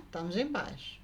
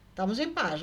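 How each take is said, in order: First: Softer, lower echo of "Estamos em paz"; "Estamos em paz" mimicked low and soft; imitating the woman. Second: Said in the usual way. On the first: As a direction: parrot "Estamos em paz" back quietly. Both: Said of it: "E ela me imitando".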